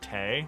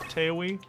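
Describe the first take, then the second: First: The name is said as one short syllable. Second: The name is said with an added second syllable. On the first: The speaker calls it right. "it's just supposed to be like Tay" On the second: The speaker calls it wrong. "and not Taewi"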